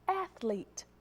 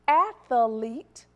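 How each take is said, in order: First: It is said with just two syllables. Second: An extra vowel makes it three syllables. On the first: The speaker calls it right. "The second word is correct" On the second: The speaker calls it wrong. "You're adding that extra E"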